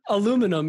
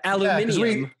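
First: It is said with four syllables, American style. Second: It is said with five syllables, British style.

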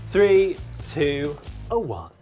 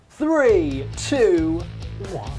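First: It is said with modest energy. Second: It is said bigger and more energetically.

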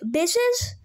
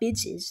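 First: It is said in a goofy, casual way. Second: It is said like a normal swear word.

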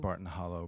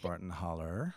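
First: The last word ends in an 'oh' sound. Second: The last word ends in an 'er' sound. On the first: The speaker is not from the area. The speaker calls it wrong. "they would stare at you and know that you're not a local" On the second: The speaker is from the area. The speaker calls it right. "it is properly pronounced Barton Holler"

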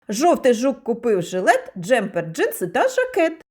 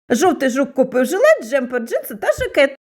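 First: It is said at a faster pace. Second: It is said at a very fast pace. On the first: "Пробуємо промовити скоромовку швидше" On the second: "А тепер промовимо скоромовку ще швидше"

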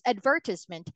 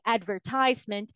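First: The word is said with a British pronunciation. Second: The word is said with an American pronunciation. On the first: "British pronunciation is advertisement" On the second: "American pronunciation would be advertisement"

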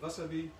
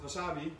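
First: The stress is on the first syllable. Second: The stress is on the second syllable. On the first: This is how it is said in Japanese. The speaker calls it right. "maar het is de wasabi" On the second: This is how Dutch speakers usually say it. The speaker calls it wrong. "Wij zeggen altijd wasabi"

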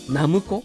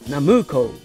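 First: The pitch accent falls on the first mora. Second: The pitch accent falls on the middle mora.

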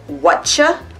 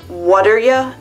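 First: The words blend into one short word. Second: Each word is said separately and clearly. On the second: "could you pronounce what are ya?"

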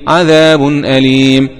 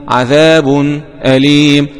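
The two takes are said the same way.

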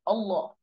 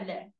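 First: The L sound is thick and heavy. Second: The L sound is thin and light. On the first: A fatha or damma comes before the word. "فلو كان قبلها بقى ضمة أو فتحة تبقى الكلمة إيه؟" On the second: A kasra comes before the word. "قبلها كسرة تبقى"

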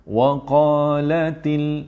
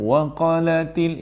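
First: The long vowel is held for two counts. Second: The word is rushed with a shortened vowel. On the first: "dua harakat, relax" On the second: "Kalau laju, itu laju"

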